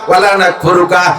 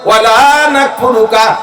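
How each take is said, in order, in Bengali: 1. 'la' এর স্বরটি ছোট করে হ্রস্ব উচ্চারিত। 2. 'la' এর স্বরটি টেনে দীর্ঘ উচ্চারিত। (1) "লারে যদি না টান দেন" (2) "জীবনে তোমার কুফরি করিব না"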